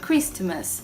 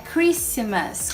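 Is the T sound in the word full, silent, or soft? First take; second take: soft; silent. First: A faint, soft T sound is heard. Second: No T sound is heard. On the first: The speaker calls it wrong. "Eu falava bem suave" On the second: The speaker calls it right. "é Christmas, Christmas, sem o T mesmo"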